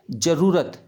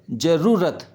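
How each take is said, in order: First: जरूरत with a short ru in the middle. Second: जरूरत with a long roo in the middle. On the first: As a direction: clip the middle vowel of जरूरत. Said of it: "छोटे ऊ की". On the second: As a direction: stretch the middle vowel of जरूरत. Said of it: "बड़े ऊ की". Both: Shown as a demonstration.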